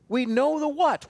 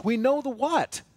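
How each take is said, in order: First: "what" stressed and higher, falling at the end; we know the WHAT. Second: "know" stressed with a falling tune, higher; we KNOW the what. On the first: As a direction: drive the refrain home on "what". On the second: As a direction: hit "know" hard, let "what" drop. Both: Acted. Repeated refrain, stress moves.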